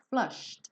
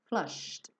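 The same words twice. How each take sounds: The two takes are said the same way.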